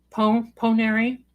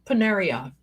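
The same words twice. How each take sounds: First: Stumble, then land "Ponary" on an "ee" ending; "Ponary" with an "-ary" ending; corrected pronunciation. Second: "Ponaria" ending in an open "ah"; mistaken pronunciation. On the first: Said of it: "not, not Ponaria". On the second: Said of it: "not, not". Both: Shown as a demonstration.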